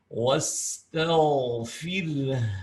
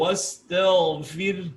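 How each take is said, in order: First: The h sound flows out with audible breath. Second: The h sound is cut short without breath. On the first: The speaker calls it right. "harus ada seperti itu mengalir" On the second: The speaker calls it wrong. "belum cukup"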